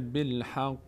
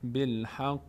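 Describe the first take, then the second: Both takes have the same delivery.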